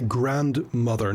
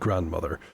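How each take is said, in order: First: It is said as two separate words, grand mother. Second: It is said as one ordinary word, grandmother. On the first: It is a title. The speaker calls it right. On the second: It is the ordinary family word. The speaker calls it wrong.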